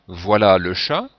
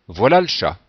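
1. La voyelle de 'le' est bien prononcée. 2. La voyelle de 'le' est supprimée. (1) "Soit en prononçant le E" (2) "si on veut parler à un rythme un peu plus rapide"

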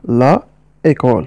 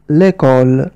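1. تُنطق أداة التعريف la كاملةً قبل école. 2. يُحذف حرف العلّة في أداة التعريف ويُوصل بكلمة école. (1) "إذا كانت الكلمة في الأصل لا إيكول" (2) "نحذف الحرف الأول وهو أ ونضع بدله علامة أبوستروف وتصبح الكلمة هكذا ليكول"

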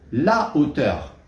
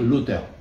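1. L'article garde sa voyelle devant le nom. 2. La voyelle de l'article tombe devant le nom. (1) "sans supprimer le A de l'article" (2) "Je ne vais pas dire l'auteur"

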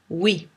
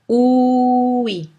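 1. Le mot est dit à une vitesse normale, de tous les jours. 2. Le mot est étiré très lentement.

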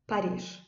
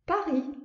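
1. Rus tarzında söyleniyor, sondaki s okunuyor. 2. Fransız tarzında söyleniyor, sondaki s okunmuyor. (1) "Rus dilində nə deyirlər?" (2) "Fransızlar özləri Paris, yəni sondakı S istifadə olunmur"

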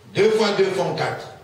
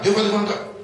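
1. La phrase est prononcée à un rythme lent. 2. La phrase est prononcée à un rythme rapide. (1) "prononce ces mots de plus en plus vite" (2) "de plus en plus vite"

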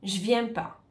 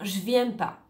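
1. Le mot 'ne' est omis. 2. Le mot 'ne' est omis.

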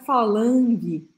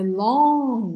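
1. Ouve-se um som de g forte no final. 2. Termina em vogal nasal, sem g. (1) "não é falangue" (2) "é long, long. Olha minha boca"

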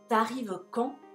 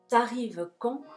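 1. La vocal de 'tu' se elide y se enlaza. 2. La vocal de 'tu' se elide y se enlaza.

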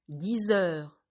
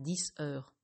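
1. Un son de liaison Z relie les deux mots. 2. Aucun son de liaison ne relie les deux mots.

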